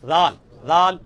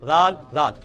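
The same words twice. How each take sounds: No difference in how they are said.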